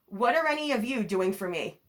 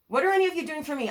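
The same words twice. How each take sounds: First: Said in the usual way. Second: Repeated faster and higher, exasperated. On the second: Retold or imitated. Telling off family who never helped, exasperated. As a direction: demand it again, fed up and rushing. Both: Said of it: "you gotta break generational curses and say".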